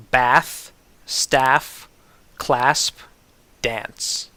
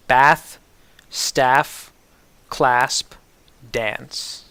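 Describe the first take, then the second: No difference in how they are said.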